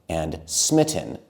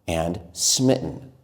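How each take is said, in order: Both takes have the same delivery.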